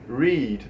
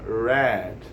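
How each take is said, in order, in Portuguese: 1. A palavra não soa como 'red'. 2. A palavra soa exatamente como 'red'. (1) "ele se pronuncia assim" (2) "a pronúncia muda e fica read. ... Que nem a cor vermelha, red"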